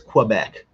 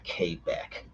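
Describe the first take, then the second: First: The word begins with a kw sound. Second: The word begins with a plain k sound. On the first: This is the version the speaker insists on. The speaker calls it right. "it's Quebec" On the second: This is how the locals want it said. The speaker calls it wrong. "should have spelled it K B E K"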